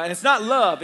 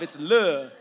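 First: Said in the usual way. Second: "love" said as "luv" with the v dropped, lower; slangy love; slang pronunciation. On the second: Shown as a demonstration. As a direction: clip "love" to "lu".

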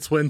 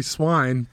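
First: "Swin" with a short i, rhyming with "win"; "Swin" as in "swim" but ending in n; common pronunciation of Swin. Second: "Swine" with a long i, rhyming with "wine"; "Swine" pronounced just like the word for a pig; actual pronunciation of Swine. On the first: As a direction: say "Swin" with the vowel of "sit". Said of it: "everyone pronounces it Swin". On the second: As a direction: say "Swine" with the vowel of "eye". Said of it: "it's actually Swine". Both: Shown as a demonstration.

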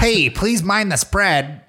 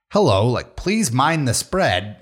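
First: Slow, higher hyped announcement; Gary Vee impression. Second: Slow, calm transit announcement; calm announcer voice. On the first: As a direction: push it like a pumped motivator. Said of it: "I can't do a Gary Vee impression". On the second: Retold or imitated. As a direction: read it like a subway notice. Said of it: "but he's like".

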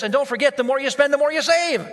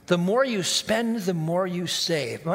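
First: Higher and louder, a pushy sales pitch; a light mock salesman hyping the deal; salesman's pitch. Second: A slow, dreamy take on the sales line; savoring the slogan. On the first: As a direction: sell it like a slick car salesman. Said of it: "and then he also said this". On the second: Shown as a demonstration. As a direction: roll the slogan slowly, half-convinced. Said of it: "Man, that sounds good".

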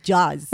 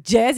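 First: ג'אז said as jaz, open a vowel; ג'אז with a broad a; accented jazz. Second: ג'אז said as jez, English style; ג'אז with an English e vowel; English jazz. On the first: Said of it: "היא תגיד ג'אז". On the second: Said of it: "היא לא תגיד ג'אז". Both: Retold or imitated.

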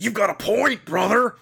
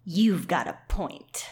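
First: High, strained wrestler impression; Macho Man Randy Savage. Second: Slow, measured, lightly forceful voice; forceful Rachel. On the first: Rachel's line redone as macho Rachel, wrestler voice. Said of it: "Macho Man Randy Savage might have been". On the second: Acted. Rachel the warrior conceding to her friend, mildly forceful. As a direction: say it slowly with a hint of force. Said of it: "She's forceful. That's what I'm imagining".

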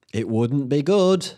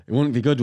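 First: Dragged slowly, a bit higher; wry slow repeat of the verdict; slow drawn-out repeat. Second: Said in the usual way. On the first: Real, not acted. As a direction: stretch it out with mock gravity.

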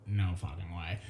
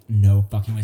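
First: Low, hushed stunned disbelief; muttered disbelief. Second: Loud, stunned disbelief. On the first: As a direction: breathe it out under your breath. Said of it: "And I'm like". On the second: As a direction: blurt it out in shock. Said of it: "So I was just like". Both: Retold or imitated.

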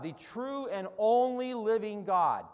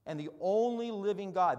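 First: Louder, slower, stress on only; hammered-home repetition; emphatic repeat. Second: Said in the usual way. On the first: Shown as a demonstration. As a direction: lean into only and stretch it out.

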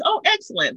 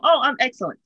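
First: Bright, much higher chirpy "Oh, excellent"; forced cheer. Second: A lighter, slightly raised cheery reply; mild forced cheer. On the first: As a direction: put on a cheery mask, pitched way up. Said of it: "And my response is". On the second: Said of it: "That's what I was taught to say". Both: Retold or imitated.

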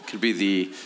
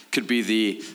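The two takes are said the same way.

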